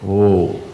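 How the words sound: It is said softly and calmly.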